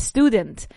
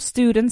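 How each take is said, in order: First: An E sound comes before the S sound. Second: The word starts directly with the S sound. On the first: The speaker calls it wrong. "Just the same as you would say a student" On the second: The speaker calls it right. "No, it's school, student"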